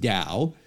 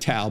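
First: The word begins with a D sound. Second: The word begins with a T sound. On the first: The speaker calls it right. "but it's pronounced Tao" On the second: The speaker calls it wrong. "looks like Tao"

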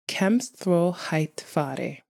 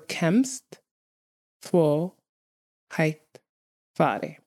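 First: The phrase is said at normal speed. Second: The phrase is said more slowly.

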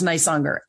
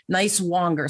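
First: The name follows its usual spoken form. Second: The name follows its spelling, sounded out literally. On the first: The speaker calls it right. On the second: The speaker calls it wrong.

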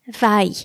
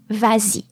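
First: The two vowels meet with no linking sound. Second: A z sound links the two vowels. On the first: The speaker calls it wrong. "we can't say va-y" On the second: The speaker calls it right. "in order not to have two vowel sounds side by side, you are going to add an S"

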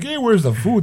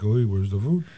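First: It is said loudly, as an open complaint. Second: It is said quietly, as a muttered complaint.

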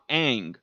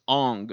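First: The name is said the anglicized way. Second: The name is said the traditional Chinese way. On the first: This is claimed to be the inauthentic pronunciation. "not Aang" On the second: This is claimed to be the authentic pronunciation. "in traditional China, it's Aang"

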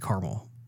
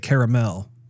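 First: The word is given its everyday casual pronunciation. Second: The word is given its fancier-sounding pronunciation. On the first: This is the speaker's usual way of saying it. "most of the time I say caramel" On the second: The speaker is trying to sound refined. "if I'm trying to sound fancy, I'll say caramel"

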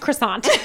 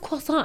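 First: The word is pronounced the English way. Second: The word is pronounced the French way. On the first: "At Burger King, it's pronounced croissant" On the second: "my dad insists on pronouncing everything in French"

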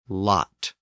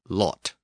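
First: The vowel is open, like ah. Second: The vowel is less open and rounder. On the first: "Standard American English pronounces the short O as ah" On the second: "in standard British English, the short O is not quite as open"

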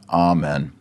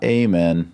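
First: The first vowel is said long. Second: The first vowel is said short. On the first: The speaker calls it right. "Long A" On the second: The speaker calls it wrong. "Not amen"

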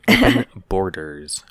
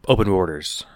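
First: Each sound is articulated carefully and clearly. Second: The words are run together and unclear. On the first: The speaker calls it right. "There we go. I enunciated" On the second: The speaker calls it wrong. "I still struggled to say that properly"

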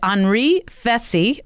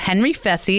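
First: The name is said with a French pronunciation. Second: The name is said with an American pronunciation.

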